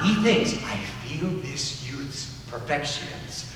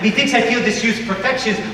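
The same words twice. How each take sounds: First: The one-syllable words are said slowly. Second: The one-syllable words are said quickly.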